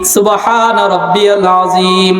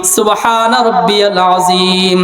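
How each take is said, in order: The two takes are said the same way.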